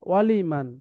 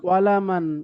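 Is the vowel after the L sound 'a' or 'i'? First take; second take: i; a. First: The vowel after the L is an 'i'. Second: The vowel after the L is an 'a'. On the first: The speaker calls it right. "লামের উপরে জবর আছে" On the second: The speaker calls it wrong. "ওয়ালামান না, ওয়ালামান বলেছি আমি না"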